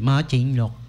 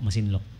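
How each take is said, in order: First: The second syllable starts with a ch sound. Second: The second syllable starts with an s sound. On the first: This is the pronunciation used by outsiders. The speaker calls it wrong. "baka somebody said" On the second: This is the local pronunciation. The speaker calls it right. "Masinloc po"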